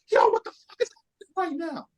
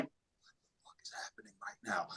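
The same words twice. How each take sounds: First: Very high, strained squeal of disbelief; high-pitched mock panic inside your head; inner freak-out. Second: Whispered inner disbelief; hushed, voiceless aside of amazement; stunned whisper. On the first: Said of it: "But in my brain, I'm like". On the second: Retold or imitated. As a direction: whisper it to yourself, dumbfounded. Inner thought, stunned, retold.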